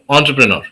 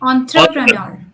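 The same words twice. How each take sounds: First: The word is said at a faster pace. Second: The word is said at a slower pace.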